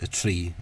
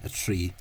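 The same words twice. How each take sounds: No difference in how they are said.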